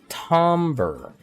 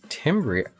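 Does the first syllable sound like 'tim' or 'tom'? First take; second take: tom; tim. First: The first vowel sounds like the o in 'tom'. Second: The first vowel sounds like the i in 'tim'. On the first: The speaker calls it right. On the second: The speaker calls it wrong.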